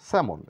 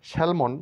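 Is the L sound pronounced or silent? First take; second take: silent; pronounced. First: The L sound is silent. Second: The L sound is pronounced. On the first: The speaker calls it right. "বলবো স্যামন, এখানে এল silent" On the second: The speaker calls it wrong. "স্যালমন না বলে"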